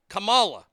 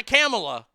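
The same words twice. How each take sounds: First: Kamala said kuh-MAH-luh, with a broad ah; Kamala stressed on the middle syllable, kuh-MAH-luh; correct pronunciation. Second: Kamala said KAM-uh-luh, with a flat a as in cam; Kamala stressed on the first syllable, KAM-uh-luh; wrong pronunciation. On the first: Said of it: "Not a Kamala". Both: Shown as a demonstration.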